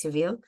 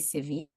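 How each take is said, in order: First: The name is said the English way, ending in -ville. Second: The name is said the Spanish way, ending in -ya. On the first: This is how the speaker says it. "I say it Seville" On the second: This is how some other people say it. "Some people say Sevilla"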